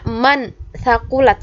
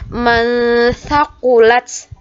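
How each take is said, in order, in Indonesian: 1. Bunyi n diucapkan dengan jelas dan penuh. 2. Bunyi n disembunyikan dengan bunyi sengau. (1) "Bukan bacanya man thaqulat, salah" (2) "tapi dibaca man thaqulat"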